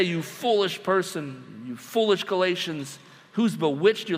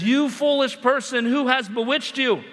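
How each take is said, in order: First: Softer, slower accusing read; a calmer rebuke for contrast; slower quieter rebuke. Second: A sharp rebuke read out from an email; harsh accusing email. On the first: Shown as a demonstration. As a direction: lay the words down slowly, less punch. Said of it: "You don't just say". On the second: Pretend. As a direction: fire the accusation straight at them. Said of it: "in the subject line, it says".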